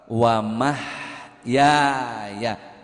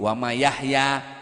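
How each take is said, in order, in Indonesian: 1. Bunyi h datang tepat setelah 'ma'. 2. Bunyi h datang setelah 'ya' pertama. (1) "jangan salah makhraj. Wa mahyaya, mim ha ya alif ya" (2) "Yahya tetangga saya, jangan diajak-ajak"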